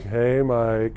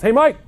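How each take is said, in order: First: The greeting is said in a flirty tone. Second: The greeting is said in a neutral tone. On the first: The speaker is romantically interested. "oh, what am I hitting on Mike?" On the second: It is an ordinary greeting. "the way I say the same words have a different meaning"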